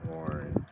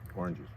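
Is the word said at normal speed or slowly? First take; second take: slowly; normal speed. First: It is said slowly. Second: It is said at normal speed.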